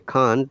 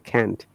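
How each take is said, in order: First: It is said with a British vowel sound. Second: It is said with an American vowel sound. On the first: "in British English we say can't" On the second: "Americans say can't"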